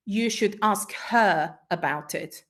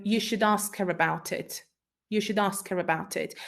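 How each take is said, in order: First: "her" said full and stressed. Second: "should" and "her" reduced and unstressed; weak forms. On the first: Teacher showing stressed "her" to the class. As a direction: lean on "her" slowly. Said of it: "if we stress the word her". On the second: Teacher demonstrating weak forms to students. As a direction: let "her" fade to a weak form. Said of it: "in weak forms". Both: Shown as a demonstration.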